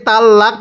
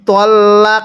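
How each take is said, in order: First: The word is split with a break before the L. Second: The doubled L is held as one joined sound. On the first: The speaker calls it wrong. "এটাকে তাল লাক পড়বো না" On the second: The speaker calls it right. "তল্লাক তু"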